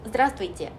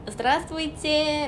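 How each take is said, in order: First: The greeting is said in a cool, flat tone. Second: The greeting is said in a warm, friendly tune. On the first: The speaker calls it right. "조금 차갑게" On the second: The speaker calls it wrong. "안녕하세요 이때 이 발음처럼"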